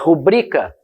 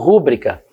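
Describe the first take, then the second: First: The stress is on the second-to-last syllable. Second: The stress is on the third-to-last syllable. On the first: The speaker calls it right. "Se for rubrica, eu não vou acentuar" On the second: The speaker calls it wrong. "eu vou querer acentuar, porque é a regra das proparoxítonas"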